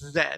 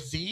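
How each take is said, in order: First: The letter is said the Canadian way. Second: The letter is said the American way. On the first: The speaker calls it right. "no, it's Z" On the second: The speaker calls it wrong. "they all watch American shows and stuff and they always go Z"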